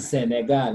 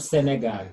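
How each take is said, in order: First: "Senegal" with weight on the final gal; French pronunciation of "Senegal"; French-style Senegal. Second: "Senegal" the everyday English way; plain local pronunciation of "Senegal"; local-accent Senegal. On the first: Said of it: "We say Senegal". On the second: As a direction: say "Senegal" without French colouring. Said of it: "not Senegal". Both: Shown as a demonstration.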